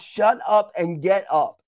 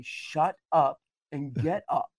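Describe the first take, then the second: First: Firm retold command, punched out; stern. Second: Slow, measured stern command; even sterner. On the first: Holy Spirit to a preacher pitying themself, stern. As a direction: deliver it as a brisk, firm order. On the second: Retold or imitated. Holy Spirit answering the preacher's complaints, very stern. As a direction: space the words out as a grave order. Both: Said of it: "spoke even more sternly to me that time".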